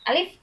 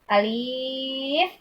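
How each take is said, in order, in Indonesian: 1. Vokalnya dibaca pendek, biasa saja. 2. Vokalnya dibaca panjang. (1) "dibacanya alif biasa" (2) "bukan seperti itu bacanya karena tidak ada mad apa-apa"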